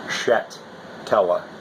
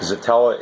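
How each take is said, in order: First: The name begins with a sh sound. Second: The name begins with a z sound. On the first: This is the Polish way of saying it. "S Z in Polish has the S H sound" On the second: This is the English or American way of saying it. "the English or American pronunciation"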